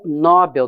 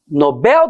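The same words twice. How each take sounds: First: The stress is on the first syllable. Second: The stress is on the last syllable. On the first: The speaker calls it wrong. "e não Nobel da Paz. Porque se eu pensar que é Nobel, eu vou acentuar pela regra das paroxítonas" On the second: The speaker calls it right. "saber que é prêmio Nobel da Paz"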